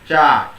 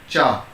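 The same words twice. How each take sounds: First: The tongue stays low in the mouth. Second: The tongue touches the palate. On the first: The speaker calls it wrong. "by keeping your tongue down to your mouth" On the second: The speaker calls it right. "every time your tongue is touched to the same part"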